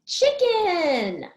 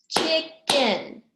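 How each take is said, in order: First: High, falling call of CHICKEN; word called out whole. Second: CHICKEN split into CHICK and EN, both punched; syllable by syllable. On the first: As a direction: announce CHICKEN in one high, falling sweep. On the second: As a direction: clap out CHICKEN in two separate beats. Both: Shown as a demonstration. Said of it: "How many syllables?".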